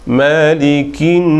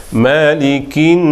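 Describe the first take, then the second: No difference in how they are said.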